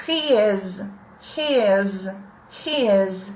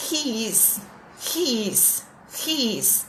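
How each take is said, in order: First: He is in a near-native English accent, R from the throat, ê and Z; native-like He is with throaty R and buzzing Z. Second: He is with a Brazilian accent, soft; Portuguese-sounding He is, I-S spelled out; Brazilian-accented English. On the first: Teacher contrasts near-native He is with the Brazilian one. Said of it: "Pronúncia perto do nativo". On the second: Teacher demonstrates the Brazilian-accented He is to the class. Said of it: "vou fazer a pronúncia aportuguesada". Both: Shown as a demonstration.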